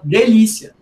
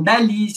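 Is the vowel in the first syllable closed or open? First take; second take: closed; open. First: The first vowel is a closed e. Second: The first vowel is a lowered, open e. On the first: This is the usual local pronunciation. "as nossas vogais, em geral, elas são fechadas" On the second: This is a less common variant in outlying areas. "ainda fazem o abaixamento dessa vogal"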